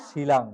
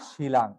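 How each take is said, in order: The two takes are said the same way.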